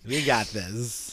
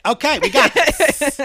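First: Very slow, low and soft; subdued mock reassurance. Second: High, loud, drawn-out reassurance; mock lawyer confidence. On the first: Lawyer reassuring a hopeless client, slow subdued mock confidence. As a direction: draw it out quietly, pitched low. Same lawyer line, after laughter. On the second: Lawyer reacting to delusional client, high-pitched mock confidence.

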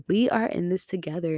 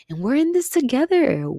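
First: Said in the usual way. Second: Much higher and louder, bursting with feeling; emotional outburst. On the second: Real, not acted. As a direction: cry it out to lift everyone up. Rallying listeners at the end.

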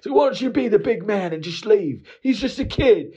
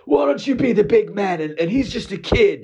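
First: Higher still, incredulous parody of the buddy's line; squeaky sarcastic repeat of the buddy; mocking echo. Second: Much higher, louder scolding from the buddy; lecturing the customer to back down; pitched-up sanctimonious friend; preachy buddy. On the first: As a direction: throw the buddy's words back, mocking. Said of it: "And I was like". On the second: Retold or imitated. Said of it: "He goes".

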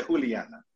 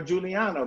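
First: Juliana said with an H sound for the J; Spanish pronunciation. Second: Juliana said with an English J; English pronunciation. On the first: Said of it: "in Spanish we say Juliana". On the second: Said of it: "but in Spanish we say Juliana". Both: Shown as a demonstration.

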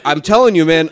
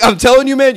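First: Said in the usual way. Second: Re-enacted exasperation, pitched up; mock-angry insistence, raised pitch; retold mad. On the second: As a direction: act out getting mad while insisting. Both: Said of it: "And now I'm mad".

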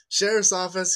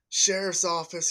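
First: Louder, higher yell of "Sheriff's office.". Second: Loud, higher, slow call of "Sheriff's office."; scary deputy voice. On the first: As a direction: shout "Sheriff's office." into the empty house. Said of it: "And he yells again". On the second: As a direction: bark "Sheriff's office." like a cop calling into the house. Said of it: "this loud, like, scary, deep, hardcore voice". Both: Retold or imitated.

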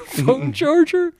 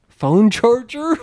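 First: Laughing repeat. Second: Mock plea. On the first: Retold or imitated. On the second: Mock eager plea for charger.

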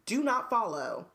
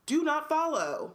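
First: Said in the usual way. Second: "Do not follow" higher and slow; firm warning. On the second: Real, not acted. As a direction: stress each word of "Do not follow".

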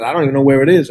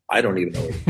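First: Said in the usual way. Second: Low, soft aside; quiet admission. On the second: Retold or imitated. Comic answers puzzled viewers about his show, quiet admission. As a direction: drop it down as a resigned comeback.

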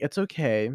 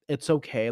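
First: Gentle reassurance. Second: Mock dismissive. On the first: Acted. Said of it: "be like". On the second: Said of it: "when people are like".

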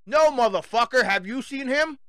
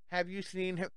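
First: Loud, higher, furious retort; angry shout. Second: Quiet flat mock of the poster; mock police poster. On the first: Real, not acted. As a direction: throw the question back in anger. Shouting back at the police. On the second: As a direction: read it like a dull police flyer.

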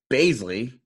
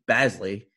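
First: "Bazley" said as BAYZ-lee, long A; first syllable of "Bazley" rhymes with days; long A pronunciation. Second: "Bazley" said as BAZ-lee, short A; first syllable of "Bazley" rhymes with jazz; short A pronunciation. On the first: Host unsure of the player's name, "Bazley" as BAYZ-lee. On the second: Host trying the other version, "Bazley" as BAZ-lee. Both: Real, not acted. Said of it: "is it Bazley or Bazley".

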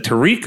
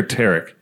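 First: Tariq said tuh-REEK; Tariq, rhyming with "seek"; alternative pronunciation. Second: Tarek said TERR-ik; Tarek, short "e" up front and a light "ik" ending; alternative pronunciation. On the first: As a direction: say Tariq with a long "ee", stressed on the second syllable. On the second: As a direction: say Tarek with stress on the first syllable. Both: Shown as a demonstration. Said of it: "Is it Tariq or Tarek?".

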